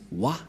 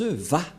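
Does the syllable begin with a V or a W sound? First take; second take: W; V. First: The syllable begins with a W sound. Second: The syllable begins with a V sound. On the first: The speaker calls it wrong. "C'est pourquoi les gens disent Wa" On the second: The speaker calls it right. "Les Juifs le prononcent Va"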